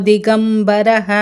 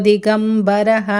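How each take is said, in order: Both takes have the same delivery.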